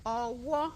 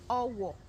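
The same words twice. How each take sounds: First: The second syllable is higher than the first. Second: The second syllable is lower than the first. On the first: A hand. "re, mi" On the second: A broom. "re, do"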